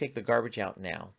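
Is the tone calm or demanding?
calm. The request is said in a calm, gentle tone. It is a firm but friendly instruction. The speaker calls it right. "it can be like that"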